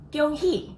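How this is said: It is pronounced the Taiwanese way. "for my family who also speak Taiwanese, 恭喜 sounds like"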